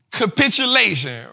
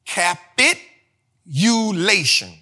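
First: Said in the usual way. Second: Drawn-out, syllable by syllable; Capitulation, spoken slowly and carefully. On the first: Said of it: "say it slow". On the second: Shown as a demonstration. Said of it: "All right, say it slow".

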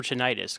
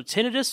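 First: Tinnitus as tih-NIGH-tus; long-i pronunciation. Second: Tinnitus as TIN-ih-tus; first-syllable stress pronunciation. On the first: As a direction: say tinnitus with a stressed 'nigh' in the middle. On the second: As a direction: put the stress at the front of tinnitus. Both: Shown as a demonstration. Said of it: "how do you pronounce that?".

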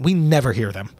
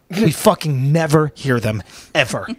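First: Said in the usual way. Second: Slow, drawn-out stress on "never"; emphatic repeat. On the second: Real, not acted. Comic telling hosts Americans never hear foreigners, emphatic. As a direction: hammer "never" slowly, word by word.

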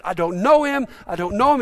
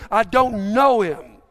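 First: Said in the usual way. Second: Louder, slow, emphatic retort, acting fed up; exasperated denial. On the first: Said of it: "for three times he says". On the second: Peter's third denial when questioned, exasperated. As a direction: deny it with drawn-out exasperation. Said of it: "he's so exasperated by the question, he curses".

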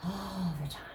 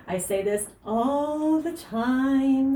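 First: Hushed echo. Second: High, loud, drawn-out "all the time"; exasperated emphasis. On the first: Coach echoing herself after co-host agrees, hushed emphasis. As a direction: drop "all the time" to a near whisper. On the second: Coach on advice she keeps repeating, emphatically drawn-out "all the time". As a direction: stretch "ALL the TIME" long, pitched up and loud. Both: Real, not acted.

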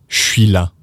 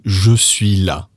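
First: "je suis là" as "shwee la"; casual clipped-vowel "shwee la" for "je suis là"; slang contraction. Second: Slow "Je suis là" with "Je" fully voiced; careful full form. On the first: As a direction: merge "je suis" into one "sh" syllable. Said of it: "for the other one". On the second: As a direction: textbook "Je suis là", pronounced "zhuh swee la". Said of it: "let's now modify that". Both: Shown as a demonstration.

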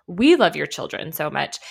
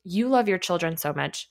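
First: "We" punched louder; stress on WE. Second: Said in the usual way. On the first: Real, not acted. Analyst assuring parents of shared care, stress on "We". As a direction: lean hard on the first word, "We".

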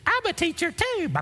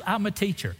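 First: Very high mock squeal of delight; gushing stranger. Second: Higher, lightly imitated woman's voice; friendly wife. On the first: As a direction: squeal it like a thrilled new friend, hammed-up. Mimicking stranger's gushing discovery of common ground. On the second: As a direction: introduce yourself brightly as the chatty wife. Tara introduces herself in retold chat.

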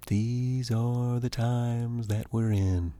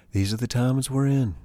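First: Slow and softer, with weight; slow, soft, solemn. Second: Said in the usual way. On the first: Real, not acted. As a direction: let it sink in gently. Repeated slower, softer.

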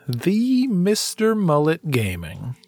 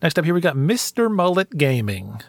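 First: "The Mister Mullet Gaming" drawn out slowly, like an announcer; grand slow name. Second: Said in the usual way. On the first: Acted.

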